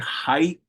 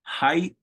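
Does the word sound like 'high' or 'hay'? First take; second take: high; high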